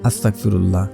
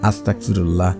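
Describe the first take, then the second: First: The word is pronounced carelessly and inexactly. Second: The same.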